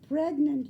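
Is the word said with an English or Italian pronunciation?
English. It is said with an ordinary English pronunciation.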